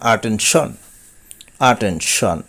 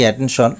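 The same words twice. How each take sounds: First: অ্যাটেনশন as "aa-TEN-shon"; correct pronunciation. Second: অ্যাটেনশন starting "ae-ten"; common mispronunciation. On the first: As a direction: open the first vowel of অ্যাটেনশন to "aa". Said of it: "but সঠিক উচ্চারণ". (অ্যাটেনশন-এর সঠিক উচ্চারণ "আটেনশন") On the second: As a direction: say অ্যাটেনশন with a front a. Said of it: "আমরা বলে থাকি". (প্রচলিত উচ্চারণ "অ্যাটেনশন") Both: Shown as a demonstration.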